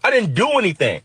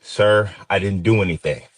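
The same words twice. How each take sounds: First: High, frightened yell of protest. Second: Held-back, steady plea; controlled, careful. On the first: In the squad car, yelling at the cops, high and desperate. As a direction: yell it out, scared and frustrated. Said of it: "and I yelled". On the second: To the cop holding a gun, a careful, controlled plea. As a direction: keep your breath even and say it politely. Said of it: "watch my breath and say". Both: Retold or imitated.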